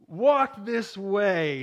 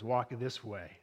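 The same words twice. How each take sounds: First: Slow, louder hunched-servant Igor voice; Igor beckoning. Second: Lower, softer echo of the servant's words; Frankenstein mimicking. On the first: Retold or imitated. Preacher acting Igor beckoning Frankenstein, slow comic servant voice. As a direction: drag out the words like Igor at the stairs. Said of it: "he beckons him to follow him and says". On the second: Frankenstein copying Igor down the stairs, lightly mimicking. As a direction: mimic him under your breath, lightly. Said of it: "Doctor Frankenstein grabs the cane and he mimics".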